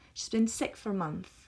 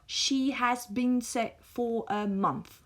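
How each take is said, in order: First: The sentence uses contracted, reduced weak forms. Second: The sentence uses full, unreduced strong forms. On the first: The speaker calls it right. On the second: The speaker calls it wrong.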